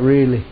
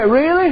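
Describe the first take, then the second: First: Lower, falling "Really."; low, steady reassuring reply; calm assurance. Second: Much higher, rising "Really?"; high rising disbelieving question; hopeful surprise. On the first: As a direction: settle her doubt firmly. Preacher's calm answer. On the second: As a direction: she can hardly believe it. Woman asking hopefully, preacher answers. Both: Retold or imitated.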